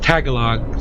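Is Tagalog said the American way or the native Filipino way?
American. It is said the American way. It is a habit picked up from coworkers abroad. The speaker calls it wrong. "I say Tagalog because all of my friends in my work says Tagalog"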